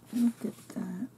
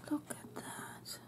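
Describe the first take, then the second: First: Said in the usual way. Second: Awed whisper. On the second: Real, not acted. Awed unboxing of gifts.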